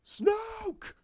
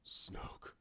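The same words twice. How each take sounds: First: Very high, strained yell; screamed name. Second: Soft whisper; hushed name. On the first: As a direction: cry out the name in a drawn-out scream. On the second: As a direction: breathe the name out very quietly. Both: Retold or imitated. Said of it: "then he goes".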